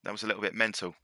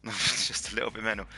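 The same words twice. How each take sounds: First: Said in the usual way. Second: Laughing through the repeat. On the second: Real, not acted. Host laughing at how wild the race was. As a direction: chuckle as you say it again.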